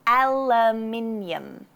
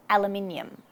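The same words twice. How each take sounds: First: "Aluminium" drawn out slowly, syllable by syllable; slow teaching take of "Aluminium", AL first; first-syllable stress. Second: "Aluminium" at normal speed, stressed on AL; first-syllable stress. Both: Shown as a demonstration. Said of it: "emphasize the first syllable".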